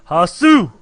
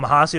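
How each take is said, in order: First: The name is said loudly with hyped emphasis. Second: The name is said plainly and calmly. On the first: "Put emphasis on it in the start. Kind of get the uh, adrenaline pumping" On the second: "I'm just going to call him Hasu right now"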